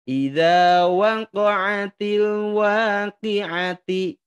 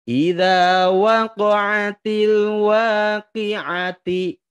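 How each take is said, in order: No difference in how they are said.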